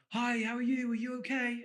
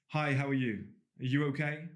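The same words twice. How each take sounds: First: The voice is raised to a high pitch. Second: The voice stays at a lower, normal pitch. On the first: The speaker signals being harmless and wanting to be liked. The speaker calls it wrong. "And they like change their voice" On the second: The speaker comes across as self-assured. The speaker calls it right. "Instead of going"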